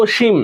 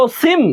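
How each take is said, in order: First: অসীম with a palatal sh, "o-shim"; sh sound. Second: অসীম with a hissing s, "o-sim"; s sound. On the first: (অসীম-এ তালব্য শ, "ওশিম") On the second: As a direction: say অসীম as "o-sim", tongue at the teeth for s. (অসীম-এ দন্ত্য স, ইংরেজি s-এর মতো) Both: Shown as a demonstration. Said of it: "এটা তালব্য স এর মতো উচ্চারিত হয়".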